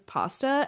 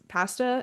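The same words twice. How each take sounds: First: The word is said with a non-British vowel. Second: The word is said with a British vowel.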